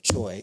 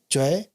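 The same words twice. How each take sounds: First: The vowel is said plainly, as written. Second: The vowel is twisted slightly away from plain. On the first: The speaker calls it wrong. "just saying it very plainly" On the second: The speaker calls it right. "you'll twist the vowel a little bit"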